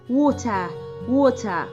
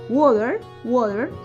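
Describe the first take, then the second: First: The T is said crisply. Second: The T sounds like a soft D. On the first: "البريتش"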